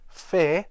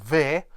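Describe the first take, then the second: First: It begins with f and rhymes with air. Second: It begins with v and has a short vowel. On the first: "this word is not actually pronounced fair" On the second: "or ver"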